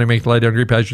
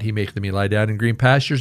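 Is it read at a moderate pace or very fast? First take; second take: very fast; moderate. First: It is read very fast. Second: It is read at a moderate pace.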